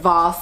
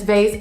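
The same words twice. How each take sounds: First: The word is said in a fancy pronunciation. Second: The word is said in a plain pronunciation. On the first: The speaker is being fancy. "people who are fancy pronounce the term as vase" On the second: The speaker is not being fancy. "I'm not fancy"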